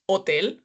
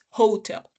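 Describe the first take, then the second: First: The word is said with Spanish pronunciation. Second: The word is said with English pronunciation. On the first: "The pronunciation of that one in Spanish is hotel" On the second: "but in English is hotel"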